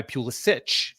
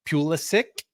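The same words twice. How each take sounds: First: Pulisic ending in a ch sound; American pronunciation. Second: Pulisic ending in a hard k sound; original-style pronunciation. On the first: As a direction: say Pulisic as "PYOO-li-sitch". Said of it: "the more the American". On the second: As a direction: say Pulisic as "PYOO-li-sick". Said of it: "how you would pronounce that name". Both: Shown as a demonstration.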